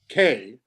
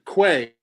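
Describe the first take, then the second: First: The name is said the European way. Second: The name is said the American way. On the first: "Here in Europe, we would say K" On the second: "You pronounce it Quay"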